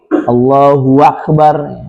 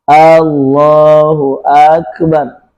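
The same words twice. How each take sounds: First: A w sound is added before akbar. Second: The final vowel of akbar is lengthened. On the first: "menambah waw di bagian tengah menjelang akhir" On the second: "menambah alif di akhir"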